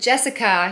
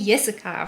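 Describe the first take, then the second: First: The name is pronounced the English way. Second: The name is pronounced the German way. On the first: "if you want to name your kid Jessica" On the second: "you'll be Jessica"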